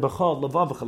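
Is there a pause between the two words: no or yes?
no. The two words run together without a pause. The speaker calls it wrong.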